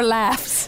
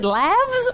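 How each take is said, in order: First: "laughs" with a crisp F-S ending; unvoiced plural ending. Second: "laughs" with a buzzing V-Z ending; voiced plural ending. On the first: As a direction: say "laughs" as if spelt "laffs". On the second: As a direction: say "laughs" as if spelt "lavz". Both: Shown as a demonstration. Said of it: "I don't know what the plural is".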